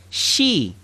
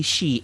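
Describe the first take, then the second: First: "she" as the Arabic shi, not the English pronoun; Arabic shi sound. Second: Said in the usual way. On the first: Shown as a demonstration. Teacher contrasts English she with the Arabic shi sound. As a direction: say "she" with a short tight Arabic vowel. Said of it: "but I mean she". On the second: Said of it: "I don't mean she like he".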